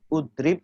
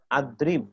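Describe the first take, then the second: First: The word begins with a u vowel. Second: The word begins with an a vowel. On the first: "tidak ud, udrib" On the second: "atau adrib"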